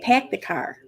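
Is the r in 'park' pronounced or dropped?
dropped. The r is dropped, in a Boston accent.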